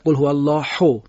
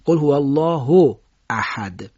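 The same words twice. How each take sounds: First: هو with a forced, heavy throaty ح; wrong harsh h. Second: الله with a light ه, احد with a throaty ح; Arabic الله said with a simple Persian ه; correct plain h and strong ḥ. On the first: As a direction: push the ه in الله too hard. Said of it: "این صحیح نیستش". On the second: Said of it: "هی الله باید ساده این فارسی ادا بشه". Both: Shown as a demonstration.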